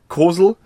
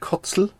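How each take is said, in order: First: The middle consonant is a plain s sound. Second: The middle consonant is a ts sound. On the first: The speaker calls it right. "Weiß ich jetzt, dass man es so ausspricht" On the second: The speaker calls it wrong. "nicht Kotzel"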